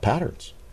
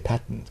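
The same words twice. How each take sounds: First: The word is said in a non-British accent. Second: The word is said in a British accent.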